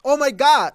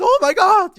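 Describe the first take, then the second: First: Imitating a quirky, funny gasp; mock-quirky oh my God. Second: Much higher and louder startled cry; mock genuine fright at a monster cat; imitated shocked gasp, up high; surprised and scared. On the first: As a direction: toss it off light and quirky, a little louder. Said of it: "she says this in a really funny way". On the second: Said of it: "she genuinely seems surprised and scared".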